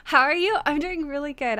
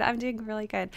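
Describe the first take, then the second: First: Lifted a little into her higher voice; higher register. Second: Lower register. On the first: Streamer greeting chat in her preferred higher register. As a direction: try the sentence in a slightly higher register. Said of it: "I really wanna talk in, like, a higher register". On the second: Streamer with a sore voice answering chat, lower register. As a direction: settle into a lower, easier voice. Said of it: "I have to talk in, like, a lower register today". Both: Shown as a demonstration.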